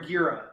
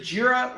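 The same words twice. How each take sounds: First: "Gira" with a hard G, like Geera; "Gira" said as GEER-ah; hard-G pronunciation. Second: "Gira" with a soft G, like Jeera; "Gira" said as JEER-ah; soft-G pronunciation. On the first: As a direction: start "Gira" with G as in gear. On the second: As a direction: start "Gira" with a J sound. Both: Shown as a demonstration. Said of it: "I don't wanna mispronounce your name".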